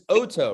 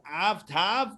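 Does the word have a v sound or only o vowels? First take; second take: o vowels; v sound. First: The word is said with o vowels, no v. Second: The word is said with v sounds. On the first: The speaker calls it right. "This is Oto" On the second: The speaker calls it wrong. "No, it's not avtav"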